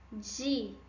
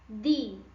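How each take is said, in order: First: The d before i has the Portuguese sound. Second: The d before i has the Spanish sound. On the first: "Como eu falaria essas palavras em português?" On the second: "Em espanhol"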